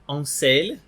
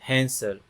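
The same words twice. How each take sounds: First: The H is silent and the stress shifts. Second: The H at the start is breathed out. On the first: "eles falam Hansel. Eles mudam até a sílaba tônica" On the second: "em vez de falar"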